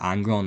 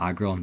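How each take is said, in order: First: An n sound comes before the g. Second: No n sound comes before the g. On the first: The speaker calls it wrong. "I keep calling it Angron" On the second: The speaker calls it right. "instead of Aggron"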